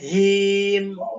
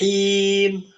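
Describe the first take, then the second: First: The h starts with voice straight away. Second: The h starts with a puff of air. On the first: The speaker calls it wrong. "bukannya him" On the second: The speaker calls it right. "jadi udara dulu yang keluar"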